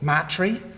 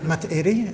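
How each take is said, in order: First: The name is said in a shortened, clipped form. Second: The name is said in its full form. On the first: This is how locals used to say it. The speaker calls it wrong. "We used to call it Matri" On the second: This is the proper pronunciation. The speaker calls it right. "Matairi is the proper pronunciation"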